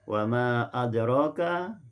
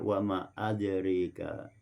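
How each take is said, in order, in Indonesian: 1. Vokal setelah r adalah a terbuka polos. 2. Vokal setelah r condong ke e.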